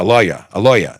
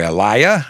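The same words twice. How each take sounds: First: Corrected New York "lawyer" as "LOY-uh"; attempted New York accent. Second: New York "lawyer" that comes out like "liar"; attempted New York accent. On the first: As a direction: say LAWYER with a rounded New York vowel, dropping the r. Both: Shown as a demonstration. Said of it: "I'm trying to make my New York thing".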